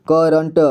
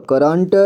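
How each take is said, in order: First: करंट split as "ka-ran-ta"; करंट read piece by piece; sounded out. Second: Said in the usual way. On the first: Shown as a demonstration. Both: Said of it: "इसे पढ़ेंगे".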